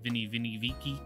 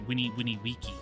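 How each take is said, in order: First: The words begin with a V sound. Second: The words begin with a W sound. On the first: The speaker calls it wrong. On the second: The speaker calls it right.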